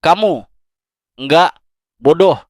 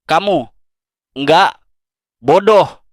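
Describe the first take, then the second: First: Kamu, nggak, bodoh repeated with long pauses, leaning on nggak and bodoh; emphatic repeat, a little softer. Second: Kamu, nggak, bodoh spaced out word by word, leaning hard on bodoh; slow, emphatic reassurance. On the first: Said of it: "Dengerin aku sekali lagi". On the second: Speaker to viewer who feels stupid, spaced-out emphatic words. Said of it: "tolong, dengerin aku baik-baik". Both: Shown as a demonstration.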